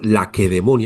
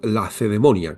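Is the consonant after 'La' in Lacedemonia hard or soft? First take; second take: hard; soft. First: The consonant after 'La' is a hard k. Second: The consonant after 'La' is a soft c. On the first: This is how the ancient inhabitants said it. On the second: This is the modern Spanish form.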